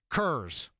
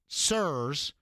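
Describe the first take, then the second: First: The word begins with a k sound. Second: The word begins with an s sound. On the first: "pronounce the C" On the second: "not sirs, as in S I R S"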